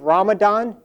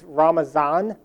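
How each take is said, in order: First: The middle consonant is a d sound. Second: The middle consonant is a z sound. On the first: This is the Arabic-speaking form of the name. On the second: This is the Farsi and Turkish form of the name.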